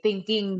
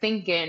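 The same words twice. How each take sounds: First: The ending is said clearly with an ng sound. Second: The ending is clipped to a plain n sound. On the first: It sounds like the idealized standard speaker. "the ends of my words are clear. ... I'm going to say" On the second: It sounds non-standard, unsuited to a job interview. "I'm not going to say"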